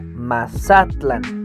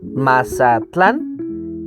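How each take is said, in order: First: The stress is on the second syllable. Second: The stress is on the last syllable. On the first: This is how Nahuatl would say it. "en náhuatl se pronunciaría Mazatlán, en la penúltima sílaba" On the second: This is how Spanish says it. "la acentuación está en la última sílaba, en tlán"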